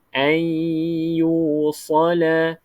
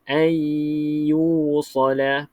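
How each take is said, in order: Both takes have the same delivery.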